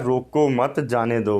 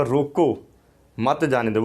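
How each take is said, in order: First: "रोको मत" as one group, then "जाने दो"; pause after मत. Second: "रोको" alone with a fall, pause, then "मत जाने दो"; pause after रोको. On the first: Visitor insists to the sepoy on his reading, grouping "रोको मत". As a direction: keep "मत" with "रोको", apart from "जाने दो". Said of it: "नहीं भाई, ये लिखा है". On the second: Sepoy insists on his own reading, pausing after "रोको". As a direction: break after "रोको", run "मत जाने दो" together. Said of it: "मैं तो इसको इस तरह पढ़ूँगा". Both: Shown as a demonstration.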